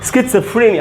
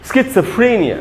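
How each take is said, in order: First: The word begins with a 'skits' sound. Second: The word begins with a 'skits' sound.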